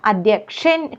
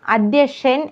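First: അധ്യക്ഷൻ with a clear "ksh"; correct pronunciation. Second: അധ്യക്ഷൻ without the k; wrong pronunciation. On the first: Teacher correcting learners, full "ksh" in അധ്യക്ഷൻ. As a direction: sound both k and sh in അധ്യക്ഷൻ. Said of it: "കായും ഷായും കൂടിയതാണ്". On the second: Teacher showing the mistake, k dropped from അധ്യക്ഷൻ. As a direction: say അധ്യക്ഷൻ as "adhyashan". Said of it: "എന്നല്ല". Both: Shown as a demonstration.

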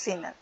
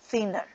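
First: "thinner" as Spanish "tíner", plain t sound; Spanish pronunciation. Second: "thinner" with a soft English th, THIN-ner; English pronunciation. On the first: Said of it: "En español le decimos thinner". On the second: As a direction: say "thinner" the English way, th between the teeth. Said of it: "Es la palabra correcta en inglés". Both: Shown as a demonstration.

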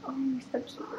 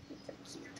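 First: Said in the usual way. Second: Barely voiced whisper repeat. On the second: Real, not acted. Whispering again so the pup stays asleep. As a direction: breathe it out soft and unvoiced.

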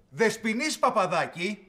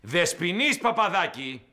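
First: Slow, drawn-out summons by name; calling out sternly. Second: Slow, louder, insistent call by name; shouted summons. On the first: Boss summoning Παπαδάκη over the manuscript, stern call. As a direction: call the culprit out, stretching each word. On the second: Boss summoning Παπαδάκη a second time, shouted summons. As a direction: bellow the name, drawn out and indignant. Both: Acted. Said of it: "τι φωνάζετε".

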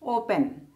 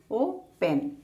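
First: Said in the usual way. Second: "open" split as o, pause, pen; syllable by syllable. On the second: Shown as a demonstration. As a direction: break "open" into two beats. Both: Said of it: "two syllable word".

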